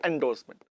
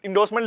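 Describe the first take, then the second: First: "एंडोर्समेंट" begun with an 'en' sound; 'en-' variant. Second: "एंडोर्समेंट" begun with an 'in' sound; 'in-' variant. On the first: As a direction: say "एंडोर्समेंट" as en-dorse-ment, e first. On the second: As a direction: say "एंडोर्समेंट" as in-dorse-ment, short i first. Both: Shown as a demonstration. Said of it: "specifically इसको लिखते हैं एंडोर्समेंट".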